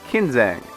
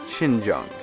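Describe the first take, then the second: First: The name begins with a hard K sound. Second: The name begins with a soft SH sound. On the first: The speaker calls it wrong. "it looks to me like" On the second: The speaker calls it right. "I think it's actually pronounced closer to"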